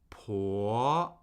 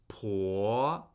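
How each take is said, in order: The two takes are said the same way.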